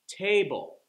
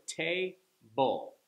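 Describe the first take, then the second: First: "Table" joined up, first syllable high and loud; stress on first syllable. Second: "table" slowly in two separate beats; split into syllables. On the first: Teacher showing where the stress goes, first syllable punched. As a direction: punch the start of "Table", drop the end. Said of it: "you hear how it gets the stress". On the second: Teacher showing a two syllable word, syllables separated. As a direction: break "table" apart after the first syllable. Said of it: "That's a two syllable word". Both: Shown as a demonstration.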